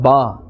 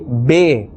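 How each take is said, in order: First: The letter name ends in an 'ah' vowel. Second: The letter name ends in an 'eh' vowel. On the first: The speaker calls it right. "instead of ba" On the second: The speaker calls it wrong. "they say be instead of ba"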